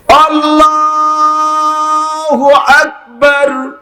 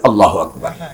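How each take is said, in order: First: It is said slowly, with the sounds drawn out. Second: It is said quickly and cut short.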